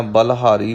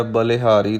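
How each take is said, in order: First: ਬਲਹਾਰੀ with no "i" after the l; misreading "balhaari". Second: ਬਲਿਹਾਰੀ as "ba-li-haari"; light "i" after l. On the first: Retold or imitated. Teacher quotes some readers' slip, ਬਲਹਾਰੀ as "bal-haari". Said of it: "ਵੀ ਪੜ੍ਹ ਜਾਂਦੇ ਨੇ". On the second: Shown as a demonstration. Teacher models the right reading, ਬਲਿਹਾਰੀ as "ba-li-haari". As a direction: sound a slight short i after the l in ਬਲਿਹਾਰੀ. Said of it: "ਲੱਲੇ ਨੂੰ ਸਿਹਾਰੀ ਲਾਉਣੀ ਹੈ".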